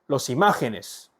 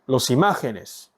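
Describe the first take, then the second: First: The stress falls on the syllable ma. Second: The same.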